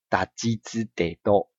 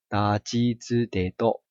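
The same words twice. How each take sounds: First: The syllables sound stiff, with tense lips. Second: The syllables sound smooth, with relaxed lips. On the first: The speaker calls it wrong. "你就会觉得有点生硬" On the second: The speaker calls it right. "我就会比较顺利一点吼"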